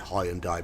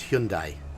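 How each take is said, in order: First: The name is said the British way. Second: The name is said the Korean-style way. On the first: This is how people in Britain usually say it. The speaker calls it wrong. "in Britain we'd say Hyundai, but we're wrong" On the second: This is how the brand's home country says it. The speaker calls it right. "the correct pronunciation is Hyundai ... that's the Japanese or the Korean pronunciation"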